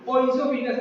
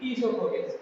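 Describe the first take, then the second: First: The word begins with an 'oy' sound. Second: The word begins with an 'ee' sound. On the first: The speaker calls it wrong. "ओइसोफिगस नहीं" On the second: The speaker calls it right. "बल्कि ईसोफोगस"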